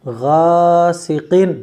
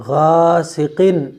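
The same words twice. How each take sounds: No difference in how they are said.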